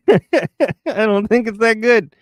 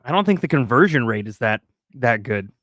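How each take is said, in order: First: High, laugh-filled repeat. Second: Said in the usual way. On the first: Real, not acted. Streamer cracking up over the conversion rate, laughing. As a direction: say it through giggles, pitched up.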